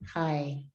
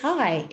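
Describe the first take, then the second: First: It is said without a smile, flatly. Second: It is said with a smile, upbeat.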